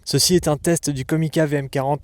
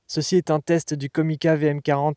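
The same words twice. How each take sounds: First: The high frequencies are boosted. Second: Light noise reduction is applied. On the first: "en mode High Frequency Boost" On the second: "en mode Denoise Low"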